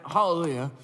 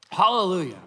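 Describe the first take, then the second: First: Said in the usual way. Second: A louder proclaimed hallelujah; exclaimed hallelujah. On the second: Retold or imitated. Preacher quoting the heavenly crowd, proclaimed louder. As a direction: lift it as a shout of praise. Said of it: "people shouting".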